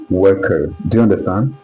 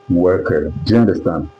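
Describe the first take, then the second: No difference in how they are said.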